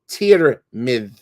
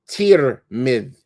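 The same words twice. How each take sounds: First: The first vowel is an 'i' sound. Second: The first vowel is an 'i' sound.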